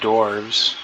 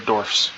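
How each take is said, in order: First: The word ends with a v sound. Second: The word ends with an f sound. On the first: The speaker calls it wrong. "not uh, V E S" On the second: The speaker calls it right. "Gotta make sure you're pronouncing that F properly"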